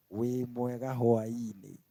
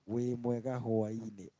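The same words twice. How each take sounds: The two takes are said the same way.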